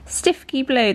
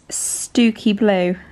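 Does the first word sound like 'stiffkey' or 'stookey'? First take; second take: stiffkey; stookey. First: The first word sounds like 'stiff-key'. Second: The first word sounds like 'stoo-key'. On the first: The speaker calls it wrong. "Looks like Stifky" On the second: The speaker calls it right. "How would you pronounce that? It's Stooky Blue"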